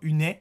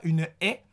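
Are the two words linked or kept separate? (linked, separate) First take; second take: linked; separate. First: The two words are joined with a linking sound. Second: The two words are kept apart without linking. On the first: The speaker calls it wrong. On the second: The speaker calls it right.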